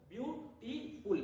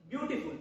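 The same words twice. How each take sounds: First: beautiful slowed to show each syllable; beautiful said slowly and clearly syllable by syllable; slow syllable demo. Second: Said in the usual way. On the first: Shown as a demonstration. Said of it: "तो दो बार touch हो रहा है". (Beautiful धीरे-धीरे शब्दांश गिनते हुए) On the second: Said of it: "beautiful बोलकर देखिए आप".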